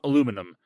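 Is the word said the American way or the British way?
American. The word is said the American way. The speaker calls it wrong.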